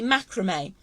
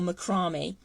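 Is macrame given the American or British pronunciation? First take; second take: American; British. First: The word gets its American pronunciation. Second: The word gets its British pronunciation. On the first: "stateside, it would be macrame" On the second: "In Britain, we say macrame"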